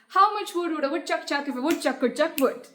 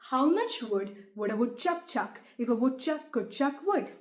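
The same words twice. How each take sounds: First: It is said very fast. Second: It is said fast.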